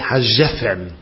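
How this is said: The consonant after 'ha' is a J sound. This is the Yemenite pronunciation. "They say Hajefen. ... that's how they pronounce the gimel with a dogish"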